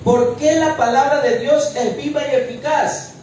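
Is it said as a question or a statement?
question. It is said as a question.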